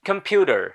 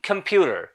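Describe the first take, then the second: First: It is said with an American accent. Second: The same.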